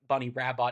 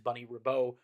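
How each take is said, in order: First: The name ends with an audible t sound. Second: The name ends on a vowel, no t sound. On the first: The speaker calls it wrong. "Bunny's name is not Rab Bunny Rabot" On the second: The speaker calls it right. "It is Bunny Rabo, pronounced that way"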